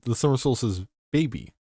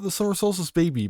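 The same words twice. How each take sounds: First: The phrase has an unexpected pause inside it. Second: The phrase flows without any internal pause. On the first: "there's a comma in there somewhere. There where you wouldn't expect one to be" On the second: "Not the summer solstice baby"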